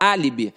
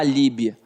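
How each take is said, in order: First: The stress is on the first syllable. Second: The stress is not on the first syllable. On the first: The speaker calls it right. "a gente fala álibi ... está na antepenúltima sílaba" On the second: The speaker calls it wrong. "Ninguém fala álibi"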